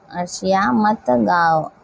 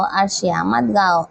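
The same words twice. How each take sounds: First: Slower repeat of the example; measured teacher's dictation. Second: Said in the usual way. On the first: Shown as a demonstration. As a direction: take it slowly so pupils can follow. Teacher repeats example slowly for class.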